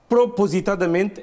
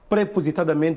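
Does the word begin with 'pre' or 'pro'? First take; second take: pro; pre. First: The first syllable is said as 'pro'. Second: The first syllable is said as 'pre'. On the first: The speaker calls it right. "é a palavra correta" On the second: The speaker calls it wrong. "no português padrão não existe"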